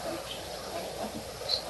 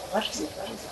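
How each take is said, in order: First: Slow breathy whisper, no voice; whispered to herself. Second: Muttered to herself, dropping softer; asking herself quietly, trailing off; fading self-question. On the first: A child racking her brain, whispering slowly. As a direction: let it fade to a whisper. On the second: A child racking her brain, muttering softly. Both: Retold or imitated.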